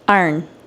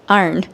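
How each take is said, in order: First: It is said in a Baltimore accent. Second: The same.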